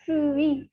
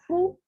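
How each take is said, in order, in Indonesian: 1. Vokalnya adalah u yang meluncur ke i. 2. Vokalnya adalah bunyi u biasa. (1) "tapi fui, ui" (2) "bukan fu"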